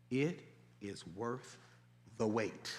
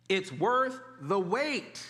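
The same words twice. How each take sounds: First: Soft, lower, drawn-out "It is worth the wait"; hushed emphasis. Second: Slowly stretched "It's worth the wait", weight on worth; slow repeat. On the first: Pastor pressing the point home to the congregation, hushed. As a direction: lean in and let the words sink in. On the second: Pastor repeating the promise to the congregation, slow and deliberate. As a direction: lay it down word by word. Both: Shown as a demonstration. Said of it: "What did I say?".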